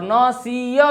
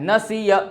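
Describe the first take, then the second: First: नसिया dragged out as "naa-see-yaa"; wrong-example long "naa-see-yaa" for नसिया; over-long vowels. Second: नसिया as a quick "na-si-ya"; quick short vowels. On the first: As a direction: stretch every vowel of नसिया. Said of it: "भी नहीं बोलना". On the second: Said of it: "जल्दी में बोलना है". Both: Shown as a demonstration.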